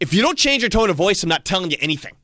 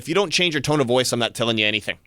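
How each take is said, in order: First: It is said with a loud, raised voice. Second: It is said at a normal, even volume.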